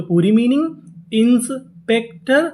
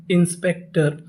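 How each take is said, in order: First: Slow, rising reveal of inspector; slow teacher reveal. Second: Said in the usual way. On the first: Shown as a demonstration. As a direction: stretch the phrase toward the word.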